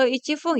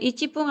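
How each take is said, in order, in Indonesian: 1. Dimulai dengan ichi, diikuti f. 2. Dimulai dengan ichi, diikuti p. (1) "atau ichifung ya" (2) "Bukan ichipung"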